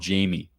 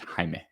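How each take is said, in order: First: The name is pronounced as Jamie. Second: The name is pronounced as Jaime. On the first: This is the mistaken form once used for the name. The speaker calls it wrong. "I called him Jamie" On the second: This is the person's actual name. The speaker calls it right. "His name is Jaime"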